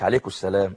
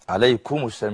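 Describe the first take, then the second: First: The final m is blurred and barely heard. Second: The final m is pronounced clearly and distinctly. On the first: The speaker calls it wrong. "مش عليكم السلام" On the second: The speaker calls it right. "يظهر الميم لو سمحت"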